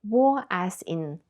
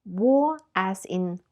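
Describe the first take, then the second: The two takes are said the same way.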